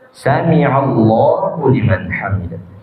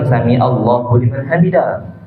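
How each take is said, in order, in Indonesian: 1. Setiap huruf diucapkan dengan jelas dan tegas. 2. Hurufnya kabur dan tidak diucapkan dengan jelas. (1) "Jelaskan hurufnya"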